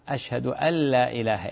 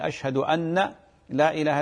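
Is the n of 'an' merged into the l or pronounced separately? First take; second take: merged; separate. First: The n sound merges into the following l. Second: The n sound is pronounced separately before l. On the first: The speaker calls it right. "تدغمين" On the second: The speaker calls it wrong. "خطأ"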